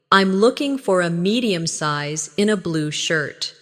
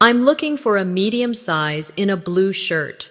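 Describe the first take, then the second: First: Slightly slower, measured model sentence; slow repeat. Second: Said in the usual way. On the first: Shown as a demonstration. Teacher models a clothes shopper's detailed answer, slightly slower. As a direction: take a little more time over the phrase. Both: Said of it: "Repeat it slowly".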